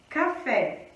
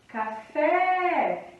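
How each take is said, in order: First: Said in the usual way. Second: "Café" with a long, drawn-out FÉ; stress on last syllable. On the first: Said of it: "palavras que possuem a última sílaba forte". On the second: Shown as a demonstration. Teacher showing students the tônica of café, "Café" with FÉ held long. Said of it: "a sílaba tônica de café é o fé".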